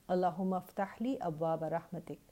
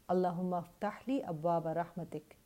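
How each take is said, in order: Both takes have the same delivery.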